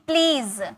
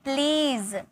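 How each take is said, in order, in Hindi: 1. यह शब्द z ध्वनि से खत्म होता है। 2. यह शब्द z ध्वनि से खत्म होता है।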